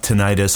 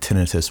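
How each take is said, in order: First: It is said the way most people say it. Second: It is said the formal way almost nobody uses. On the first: "I have tinnitus" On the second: "if you say it right, it's like tinnitus, but nobody says that"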